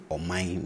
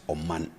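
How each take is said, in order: First: Omai ending in a nasal ein; Twi ein ending. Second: Said in the usual way. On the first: Shown as a demonstration. Teacher contrasts Omai with plain Oman. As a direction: Omai said as oh-mine, not Oman. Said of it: "I say ... not".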